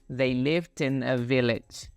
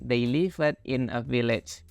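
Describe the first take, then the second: First: The word lived ends with a released d. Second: The word lived is said like livet. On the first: The speaker calls it right. "Jadi ada letupannya gitu ... tapi" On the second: The speaker calls it wrong. "buat kamu yang masih baca livet-livet ... bukan"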